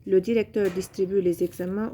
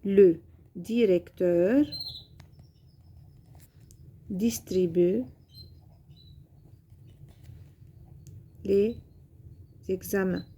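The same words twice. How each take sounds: First: Said in the usual way. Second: Slow, word by word with long pauses; dictation pace. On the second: Shown as a demonstration. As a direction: spell the sentence out word by word for pupils. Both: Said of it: "Par exemple".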